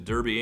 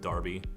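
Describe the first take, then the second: First: The first syllable sounds like 'dur'. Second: The first syllable sounds like 'dar'. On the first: The speaker calls it wrong. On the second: The speaker calls it right.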